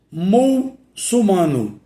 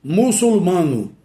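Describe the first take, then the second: First: "mulsumano" said slowly with the L moved into "mul"; forma incorreta. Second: "Muçulmano" said slowly with the L closing "çul"; forma correta. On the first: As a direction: drag out the misspelt "mulsumano", mul-su-ma-no. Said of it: "Essa forma aí é incorreta". ("mulsumano" devagar, com L na primeira sílaba) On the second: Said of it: "Qual é a forma correta?". ("Muçulmano" devagar, com L na segunda sílaba) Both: Shown as a demonstration.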